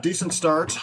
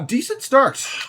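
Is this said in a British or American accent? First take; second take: American; British. First: It is spoken in a normal American accent. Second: It is spoken in a put-on British accent. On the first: "speak normally for once" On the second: "incessant British accent"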